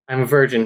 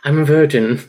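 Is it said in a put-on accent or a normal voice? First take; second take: normal voice; put-on accent. First: It is read in the speaker's normal voice. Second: It is read in a put-on character accent.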